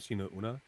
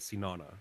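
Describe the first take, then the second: First: The two parts are said as separate words. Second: The two parts are run together, like sauna. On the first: The speaker calls it right. "one word, but pronounced the same" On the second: The speaker calls it wrong. "a lot of people pronounce it as sinana, like sauna"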